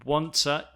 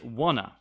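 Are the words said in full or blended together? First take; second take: full; blended. First: Both words are said fully and separately. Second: The words blend into one reduced form.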